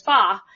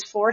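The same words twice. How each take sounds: First: "fa" with the R dropped, an open ah vowel; Boston R-dropping. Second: Said in the usual way. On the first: Shown as a demonstration. Linguist shows how Markey says four, Boston style. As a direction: say "fa", not four, no R at all. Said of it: "he says that, he says fa". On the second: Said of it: "So instead of four".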